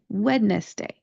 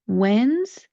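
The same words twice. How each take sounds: First: Three syllables, with the D sound pronounced. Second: Two syllables, with no D sound. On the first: The speaker calls it wrong. "it should be pronounced Wednesday ... that sounds weird" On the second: The speaker calls it right. "make this two syllables ... do not pronounce that D"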